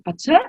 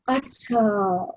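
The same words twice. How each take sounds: First: It is said as a doubtful question. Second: It is said as accepting agreement. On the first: The speaker doubts what was said. "it could be are you sure?" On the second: The speaker accepts what was said. "So you're saying, oh, all right"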